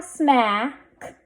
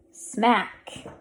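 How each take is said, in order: First: Smack with stretched vowel, k delayed; blended slowly. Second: Said in the usual way. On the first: Shown as a demonstration. Teacher sounding out a word for readers, blended slowly. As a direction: hold the a in smack, then add k. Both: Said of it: "Let's read this".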